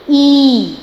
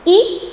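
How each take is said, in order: First: ई held long and loud; long vowel ii. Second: ई said short and quick; short vowel i. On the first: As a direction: stretch the long ई out fully. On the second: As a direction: give a brief short ई. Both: Shown as a demonstration. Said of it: "comparison कीजिए".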